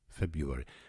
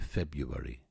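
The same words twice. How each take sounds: First: The word is said with the first R sound. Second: The word is said without the first R sound. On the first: This is the correct form. The speaker calls it right. "Hard to say that word" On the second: This is how it was said in childhood. The speaker calls it wrong. "we used to say February when we were children"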